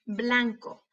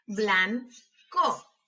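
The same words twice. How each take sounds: First: Said in the usual way. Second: "Blanco" slowly as blan, pause, co; broken into syllables. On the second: Shown as a demonstration. Teacher helping hear each sound, syllable by syllable. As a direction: break "Blanco" in two. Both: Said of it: "quiero que las quiebres entre sílabas".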